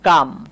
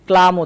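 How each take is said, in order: First: The L sound is left out entirely. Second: The L sound is pronounced in the word. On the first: The speaker calls it right. "এটা হচ্ছে কাম" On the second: The speaker calls it wrong. "এটাকে আবার অনেকে ক্লাম উচ্চারণ করে"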